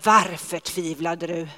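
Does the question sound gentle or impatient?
impatient. The question is asked in a weary, exasperated tone. The asker is tired and fed up. "då blir jag lite less på folk som inte bara gör det de ska"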